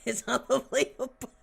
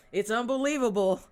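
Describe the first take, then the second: First: "unbelievable" said through a laugh; cracking up at the absurd news. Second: Exclaimed. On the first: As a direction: laugh it out in disbelief. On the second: Reacting to the news. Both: Real, not acted.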